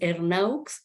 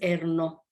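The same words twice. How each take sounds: First: The name is said with Spanish sounds. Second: The name is said with French sounds. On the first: "si lo castellanizamos" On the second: "si lo afrancesamos"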